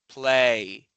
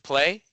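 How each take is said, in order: First: The vowel drags out with a glide. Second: The vowel is short, without a glide.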